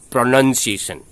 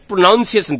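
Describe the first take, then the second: First: The second syllable sounds like 'nun'. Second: The second syllable sounds like 'noun'. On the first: The speaker calls it right. "that is pronunciation" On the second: The speaker calls it wrong. "This is not pronunciation"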